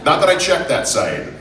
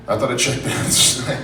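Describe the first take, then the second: First: Said in the usual way. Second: Breaking into a laugh on the words. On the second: Real, not acted. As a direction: repeat it while cracking up. Repeats the joke through a laugh.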